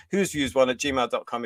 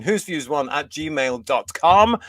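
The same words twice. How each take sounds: First: Said in the usual way. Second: Slowly spelling out the email address; slow spelled-out email. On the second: Shown as a demonstration. Host giving viewers the email address, slow and deliberate. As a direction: read "Who's Views one at gmail dot com" slowly and clearly, each part separate. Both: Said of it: "that's the email".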